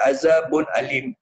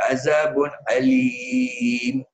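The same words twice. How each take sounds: First: The vowel before the final m is short. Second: The vowel before the final m is long. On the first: The speaker calls it wrong. "dia tak baca" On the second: The speaker calls it right. "Dia baca"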